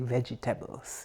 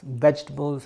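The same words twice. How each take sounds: First: The word has a Jamaican pronunciation. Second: The word has a standard, non-Jamaican pronunciation. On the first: "I'm Jamaican, so I say vegetables" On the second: "however you want to pronounce it"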